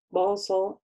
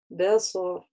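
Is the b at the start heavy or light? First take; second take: heavy; light. First: The b is heavy, with a dark o-like vowel. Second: The b is light, with a bright vowel. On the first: The speaker calls it wrong. "Не босо" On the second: The speaker calls it right. "а б"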